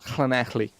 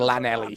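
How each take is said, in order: First: The word begins with a hissing breathy L sound. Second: The word begins with a plain L sound. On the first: The speaker calls it right. "Until I learned the noise" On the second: The speaker calls it wrong. "I used to say"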